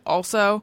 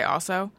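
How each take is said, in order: First: The L sound is clearly pronounced. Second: The L sound is dropped, said fast. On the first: "I overpronounce the L in my head. I said also" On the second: "normally if I'm saying it fast, I just say also"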